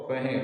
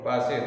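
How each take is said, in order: First: The middle consonant is an 'h' sound. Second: The middle consonant is an 's' sound.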